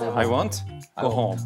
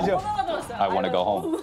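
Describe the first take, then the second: First: Each word is cut off separately, sounding choppy. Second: The words run together smoothly, want to becoming wanna. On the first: This is how Koreans typically say it. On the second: This is how native speakers say it.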